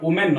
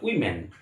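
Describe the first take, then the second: First: The word begins with an 'o' sound. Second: The word begins with a 'wi' sound. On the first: The speaker calls it wrong. "এটা কিন্তু উচ্চারণ ওমেন নয়" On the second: The speaker calls it right.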